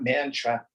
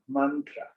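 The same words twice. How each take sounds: First: The first vowel is not the 'u' of 'but'. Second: The first vowel sounds like the 'u' in 'but'. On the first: The speaker calls it wrong. "It's not mantra" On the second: The speaker calls it right. "the short A is pronounced like the U in but"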